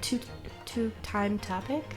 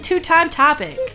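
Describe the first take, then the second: First: It is said hesitantly, with stumbles and restarts. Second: It is said smoothly and confidently, without stumbling.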